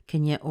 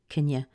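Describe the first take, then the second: Both takes have the same delivery.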